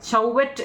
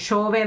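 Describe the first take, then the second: First: It starts with 'ch' and ends in 't'. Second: It starts with 'sh' and ends in a vowel. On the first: "നമ്മൾ ചൗവറ്റ് എന്നാണ് നമ്മൾ കറക്റ്റ് ഇംഗ്ലീഷിൽ അത് പറഞ്ഞത്" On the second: "ഷോവെ എന്നാണ് കേട്ടോ"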